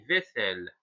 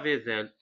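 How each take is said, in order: First: The middle consonant sounds like an s. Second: The middle consonant sounds like a z. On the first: The speaker calls it right. "On dit vaisselle. ... pour donner le son S, on doit ajouter deuxième S" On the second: The speaker calls it wrong. "on ne dit pas vaisselle"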